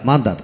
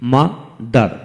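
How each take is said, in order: First: Said in the usual way. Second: mother in two slow beats, ma, dar; split into syllables. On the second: Shown as a demonstration. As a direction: pause after মা in mother. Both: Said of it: "দুটি syllable থাকে".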